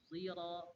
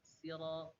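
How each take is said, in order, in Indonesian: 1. Kata ini diawali dengan bunyi seperti z. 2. Kata ini diawali dengan bunyi s biasa. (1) "kalau Khalaf dibaca zira" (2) "dibaca si sira, itu riwayat Qun Qunbul"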